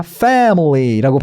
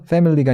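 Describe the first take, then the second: First: Family with a slow, wide jaw-dropped "fa"; open vowel. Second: Family with a narrow, undropped first vowel; wrong vowel. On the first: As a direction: drop the jaw and stretch the start of family. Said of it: "턱 벌려야 되는 에예요". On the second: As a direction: say family without opening the jaw. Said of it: "family가 아니라". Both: Shown as a demonstration.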